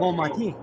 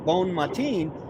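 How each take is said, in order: First: The N of bon is silent, nasal O. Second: The N of bon is sounded as spelled. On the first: This is how French speakers say it. The speaker calls it right. "is actually" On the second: This follows the spelling. The speaker calls it wrong. "what you spell bon matin"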